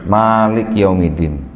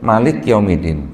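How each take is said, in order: First: The first vowel of Malik is long. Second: The first vowel of Malik is short. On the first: It means ruler. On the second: It means king.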